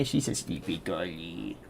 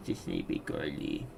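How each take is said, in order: First: Put-on soft, slow, lower baby talk. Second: Put-on breathy whispered baby talk. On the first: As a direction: coo over the sleepy cat. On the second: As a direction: whisper it to the sleeping cat. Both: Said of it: "I shouldn't be doing my baby voice".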